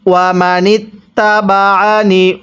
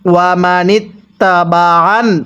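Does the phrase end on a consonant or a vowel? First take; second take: vowel; consonant. First: The final nun keeps its short i vowel. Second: The final nun is said without any vowel. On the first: The reading continues without stopping. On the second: The reader stops at this word.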